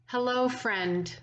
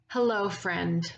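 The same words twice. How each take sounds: First: Mild imitation of a friend's tender welcome; embracing warm greeting. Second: Said in the usual way. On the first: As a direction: greet a dear friend gently, like a summer breeze. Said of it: "said in that way that embraces and enfolds". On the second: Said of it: "Jim would simply say".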